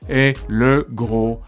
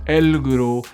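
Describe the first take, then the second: First: The word le is said as a separate syllable. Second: The words merge into el before gros. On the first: "Normally in French we would say" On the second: "but they went"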